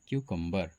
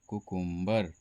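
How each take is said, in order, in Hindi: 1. शब्द की शुरुआत 'kyoo' ध्वनि से होती है। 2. शब्द की शुरुआत साधारण 'koo' ध्वनि से होती है। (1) "ये इसका सही उच्चारण होता है" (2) "लेकिन कुकुम्बर इसका सही उच्चारण नहीं है"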